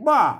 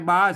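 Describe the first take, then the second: First: The syllable has a falling tone. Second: The syllable has a level mid tone. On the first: "ใส่ไม่โทบ้าอันนี้บ้าเสียงโทปกติ" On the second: "บ้าเสียงอันอ่าสามัญ"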